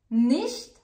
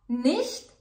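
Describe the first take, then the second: No difference in how they are said.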